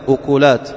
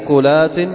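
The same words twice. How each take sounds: First: Both first vowels are u, as ukulat. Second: U then no vowel after k, as uklat. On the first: "ضم الهمزة مع ضم الكاف" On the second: "وسكونها"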